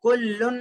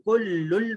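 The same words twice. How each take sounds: First: कुल्लुन with a clear final n; as written. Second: कुल्लुल ending on l in place of n; correct merged reading. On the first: Teacher reading out what is written, unmerged n. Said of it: "लिखा हुआ है". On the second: Teacher showing how written kullun is read, merged l. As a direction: close कुल्लुल on a held l. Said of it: "लेकिन कुल्लुल पढ़ेंगे". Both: Shown as a demonstration.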